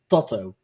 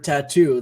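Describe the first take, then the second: First: It has a short A, said literally. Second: It is said the usual English way.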